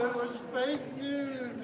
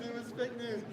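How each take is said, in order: First: Slow, drawn-out announcement with weight on fake; slow dramatic reveal. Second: Said in the usual way. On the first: Real, not acted. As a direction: spell out "fake" slowly like a verdict. Announces quiz answer dramatically.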